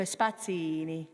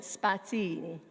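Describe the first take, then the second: First: Spazzini with a light, unstressed single N. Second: Spazzini, the N short and light; single N spazzini. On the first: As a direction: say spazzini, barely touch the N. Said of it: "you don't really emphasize it". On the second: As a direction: glide over the N in spazzini. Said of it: "when there's one consonant". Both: Shown as a demonstration.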